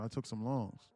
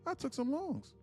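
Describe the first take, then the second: First: It is said in an ordinary conversational voice. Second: It is said in an exaggerated dubbed-style voice. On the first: Listeners think he is saying it about himself. The speaker calls it wrong. "like how I'm talking" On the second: Listeners understand he is reading a comment. The speaker calls it right. "like that"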